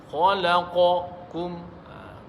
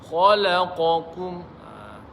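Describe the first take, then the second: The two takes are said the same way.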